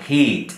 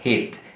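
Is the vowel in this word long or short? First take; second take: long; short. First: The vowel is held long. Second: The vowel is cut short. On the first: The speaker calls it right. "It's a long sound" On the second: The speaker calls it wrong. "আমরা সবগুলোতেই কিন্তু short sound করি"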